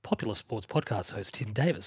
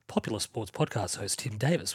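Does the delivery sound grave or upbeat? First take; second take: grave; grave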